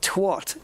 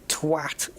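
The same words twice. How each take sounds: First: The vowel is pronounced like an O. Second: The vowel is pronounced like an A. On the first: The speaker calls it wrong. "It's not twat. It's not. Don't pronounce it like an O" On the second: The speaker calls it right. "It's an A. It's twat"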